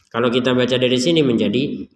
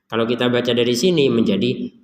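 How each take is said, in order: No difference in how they are said.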